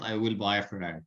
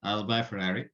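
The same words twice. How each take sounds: First: "will" said in full and stressed; "will" fully pronounced, not contracted; full form I will. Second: "I'll" contracted, quick and light; "I'll buy" linked, unstressed; weak form I'll. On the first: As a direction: spell out "I will" with weight on will. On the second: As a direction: glide through "I'll" as one syllable. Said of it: "This is the weak form". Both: Shown as a demonstration.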